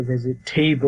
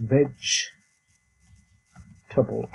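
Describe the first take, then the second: First: "ভেজিটেবল" as "ve-zi-TAY-bol"; common mispronunciation. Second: "ভেজিটেবল" slowly split as "vej... tuh-bol"; teacher's slow "VEJ... tbl" for "ভেজিটেবল"; correct pronunciation. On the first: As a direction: punch the wrong TAY in "ভেজিটেবল". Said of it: "কোনোটাই ঠিক না". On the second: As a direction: model "ভেজিটেবল" with j, long pause before the short ending. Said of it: "এটার উচ্চারণ হবে". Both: Shown as a demonstration.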